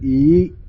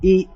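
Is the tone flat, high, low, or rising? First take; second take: rising; high. First: The pitch starts low and rises high. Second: The pitch is held high throughout. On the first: "is low going to high" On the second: "that's high"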